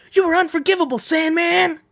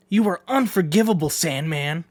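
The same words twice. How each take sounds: First: High, loud furious cry; more intense. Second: Said in the usual way. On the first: Acted. A warrior screams his condemnation at Sandman, high and loud. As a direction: hurl it at him with full fury. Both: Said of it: "I should do that a little more".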